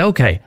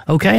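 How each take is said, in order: First: Okay. with a falling tune, a little lower; a settled, falling Okay. in reply; agreeing okay. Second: Okay? said with a rising question tune; okay? with the pitch going up at the end, checking in; asking okay. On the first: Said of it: "And they say". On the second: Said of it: "I'm gonna test your character". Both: Retold or imitated.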